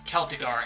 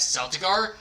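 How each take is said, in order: First: KEL-tih-gar for Celtigar; Celtigar with hard K. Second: SEL-tih-gar for Celtigar; Celtigar with soft C. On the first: Streamer explaining audiobook pronunciations, Celtigar with hard K. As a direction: say Celtigar with K at the front, as in kelp. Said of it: "there are times where they pronounce". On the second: Streamer quoting audiobook readers' variant, Celtigar with soft C. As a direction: say Celtigar with S at the front, as in sell. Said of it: "they pronounce Celtigar as". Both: Shown as a demonstration.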